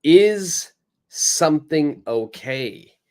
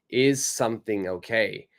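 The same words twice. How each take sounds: First: "Is" raised and stretched; teacher stressing the question word. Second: Said in the usual way. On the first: Shown as a demonstration. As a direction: lean on the opening word "Is". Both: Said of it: "we will have".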